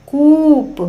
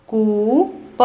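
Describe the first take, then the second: First: कूप with the ऊ held long, higher and louder. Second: Said in the usual way. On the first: Shown as a demonstration. Teacher repeating कूप for pupils, long and loud. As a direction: stretch and lift the ऊ in कूप. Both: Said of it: "लंबे समय तक और ऊंचे स्वर में पढ़ा".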